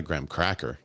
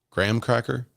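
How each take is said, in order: First: "graham cracker" with cracker carrying the weight; stress on CRACKER. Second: "graham cracker" higher, with graham emphasized; stress on GRAHAM. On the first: Streamer showing the wrong emphasis, CRACKER stressed in "graham cracker". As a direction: land on cracker, falling at the end. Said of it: "emphasize the word cracker". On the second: Streamer arguing the difference is graham, GRAHAM stressed in "graham cracker". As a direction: make graham the key word of "graham cracker". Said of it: "When you emphasize the word graham". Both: Shown as a demonstration.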